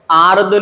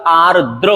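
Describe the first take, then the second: First: आर्द्र said as "aard"; final र dropped. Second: आर्द्र said as "aar-dra"; final र sounded. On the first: Teacher recapping the mistake, आर्द्र without final r. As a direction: drop the last r of आर्द्र. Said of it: "आर्द्र नहीं होता". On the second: Teacher recapping, आर्द्र ending in "dra". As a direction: sound both r's in आर्द्र. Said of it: "आर्द्र होता है". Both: Shown as a demonstration.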